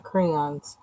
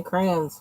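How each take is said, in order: First: "crayons" in full, as "cray-ons"; two-syllable "crayons". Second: "crayons" squeezed into one syllable, like "crans". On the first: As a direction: say "crayons" with a clear "-ons" ending. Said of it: "not crayons". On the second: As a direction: say "crayons" as "crans", rhyming with "fans". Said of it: "I say crayons". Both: Shown as a demonstration.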